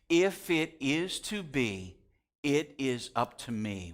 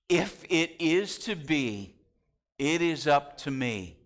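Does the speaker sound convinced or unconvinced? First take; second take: unconvinced; convinced. First: It is said without much conviction. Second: It is said with real conviction.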